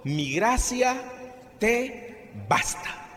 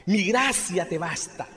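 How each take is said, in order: First: Slow solemn quote. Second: Said in the usual way. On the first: Retold or imitated. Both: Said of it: "Y el Señor me respondió".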